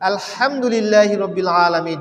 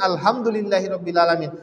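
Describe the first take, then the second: First: The sounds are pronounced carefully and distinctly. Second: The sounds are pronounced carelessly and blurred. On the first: All praise belongs to God. The speaker calls it right. "সমস্ত প্রশংসা আল্লাহর" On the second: All filth belongs to God. The speaker calls it wrong. "সমস্ত ময়লা আবর্জনা আল্লাহর"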